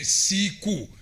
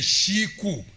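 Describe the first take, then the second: First: The word begins with an s sound. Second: The word begins with an sh sound. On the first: This is the southern way of saying it. "Those of us in the south, we say siku" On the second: This is the central way of saying it. "These ones in the central say shiku"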